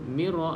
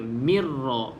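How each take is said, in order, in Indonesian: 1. Bunyi r tunggal dan pendek. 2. Bunyi r digandakan dan dibaca jelas. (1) "tak tak jelas" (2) "kena jelaskan bunyi uh, sabdu dia"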